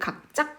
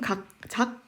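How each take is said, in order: First: The second syllable starts with a tense consonant. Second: The second syllable starts with a plain consonant. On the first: The speaker calls it right. "된소리 되기 때문입니다" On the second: The speaker calls it wrong. "각작이 아니라"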